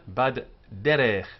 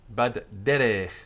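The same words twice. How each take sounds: Both takes have the same delivery.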